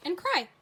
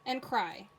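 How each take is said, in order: First: "cry" said high and loud with delight; excited. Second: Said in the usual way. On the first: Shown as a demonstration. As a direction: cheer "cry" for the rhyme match. Card flip, found a match.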